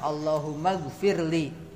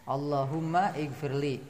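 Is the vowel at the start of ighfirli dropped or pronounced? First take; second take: dropped; pronounced. First: The words are linked, with the i dropped. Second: The words are separate, with the i sounded.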